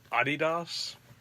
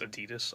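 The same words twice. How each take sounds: First: The word is said in a nonstandard childhood pronunciation. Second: The word is said in the usual standard pronunciation. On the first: The speaker calls it wrong. "I used to say Adidas, but that was like a childhood thing" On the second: The speaker calls it right. "But it's Adidas, obviously"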